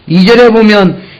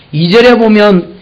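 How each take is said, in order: Both takes have the same delivery.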